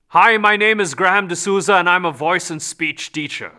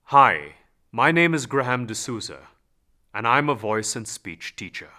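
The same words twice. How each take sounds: First: The voice is not centered in the body. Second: The voice is full and centered from the body.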